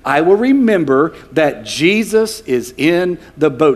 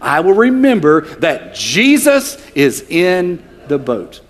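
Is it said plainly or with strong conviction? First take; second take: plainly; strong conviction. First: It is said plainly, without extra conviction. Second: It is said with strong, emphatic conviction.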